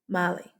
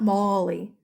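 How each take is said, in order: First: The first syllable sounds like an open 'mah'. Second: The first syllable sounds like 'mol' in Molly. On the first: The speaker calls it right. "Ma, Mali" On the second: The speaker calls it wrong. "it's not Molly"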